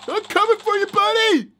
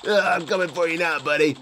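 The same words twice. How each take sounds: First: Pitched way up, teasing the enemy; sing-song threat to a toy villain; playful high-voiced threat; high mock taunt. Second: Pitched down, mock-sinister threat; lower, mock-menacing taunt; low mock menace. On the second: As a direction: growl it like a pretend villain. Playful taunt at game enemy.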